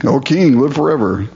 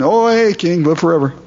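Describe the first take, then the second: First: Said in the usual way. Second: "Oh, hey" tossed off high and breezy; casual, nothing happened. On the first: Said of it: "just the normal kind of response". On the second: Retold or imitated. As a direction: greet the king like a buddy, unbothered. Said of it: "like nothing's happened".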